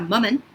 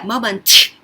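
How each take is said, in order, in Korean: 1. 마지막 T는 막아 둔 채 터뜨리지 않습니다. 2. 마지막 T는 완전히 터뜨려 발음합니다. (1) "T 발음을 혀천장에 붙이는 것까지니까 moment 이렇게까지만 읽어도 좋고요" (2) "moment 이렇게 안 해도 되고요"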